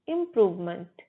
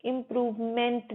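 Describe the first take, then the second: First: 'इम्प्रूवमेंट' joined up as im-PROOV-munt; weak schwa in the last syllable of 'इम्प्रूवमेंट'; correct pronunciation. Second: 'इम्प्रूवमेंट' ending in a full 'ment'; wrong pronunciation. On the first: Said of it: "इम्प्रूवमेंट नहीं, मंट". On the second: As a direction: say 'इम्प्रूवमेंट' with a clear 'e' in the last syllable. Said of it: "इम्प्रूवमेंट नहीं". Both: Shown as a demonstration.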